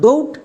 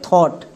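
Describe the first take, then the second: First: The vowel sounds like the one in 'go'. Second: The vowel sounds like the one in 'law'. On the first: The speaker calls it wrong. "এটা একদমই ভুল" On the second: The speaker calls it right. "সো এর উচ্চারণটা হবে থট"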